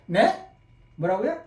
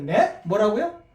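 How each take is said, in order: First: 뭐라고요 rising like a misheard call; puzzled question. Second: 뭐라고요 rising at the end like a confused question; puzzled question. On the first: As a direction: ask 뭐라고요 with a lift at the end. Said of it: "전화 받을 때만 생각하세요". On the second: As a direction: ask 뭐라고요 as if you misheard the caller. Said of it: "second tone demo via phone". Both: Shown as a demonstration.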